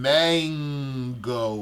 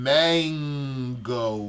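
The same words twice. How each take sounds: First: The n turns into ng at the back. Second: The n turns into ng at the back.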